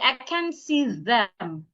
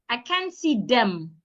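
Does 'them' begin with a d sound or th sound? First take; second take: th sound; d sound. First: The th in 'them' is pronounced with the tongue out. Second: The th in 'them' is pronounced like a d. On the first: The speaker calls it right. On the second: The speaker calls it wrong. "That is wrong"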